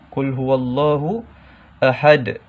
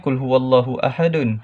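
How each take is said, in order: First: The last word ends in a strong bouncing d. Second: The last word ends with an added vowel and n. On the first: The reciter stops at the end of the verse. "lantunan lantunan bunyinya kuat" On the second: The reciter continues without stopping.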